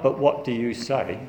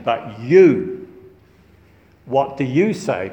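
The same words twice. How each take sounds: First: Said in the usual way. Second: Heavy, loud stress on "you", then a pause; emphatic, accusing YOU. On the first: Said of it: "It's not". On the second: Shown as a demonstration. Accusers challenging Jesus against Moses, emphatic stress on "you". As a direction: punch out "you" on its own, then put the question. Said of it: "It's emphatic because they're accusing him".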